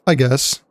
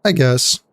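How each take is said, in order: Both takes have the same delivery.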